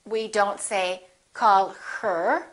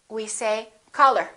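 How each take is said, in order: First: The h at the start of 'her' is pronounced. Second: The h at the start of 'her' is dropped. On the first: The speaker calls it wrong. "We drop the H. We don't say" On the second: The speaker calls it right. "when people are speaking naturally, we say"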